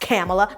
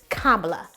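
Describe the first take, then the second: First: It does not begin like 'comma'. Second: It begins like 'comma', then 'la'. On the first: The speaker calls it wrong. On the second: The speaker calls it right. "It's comma like the punctuation mark and la like the note"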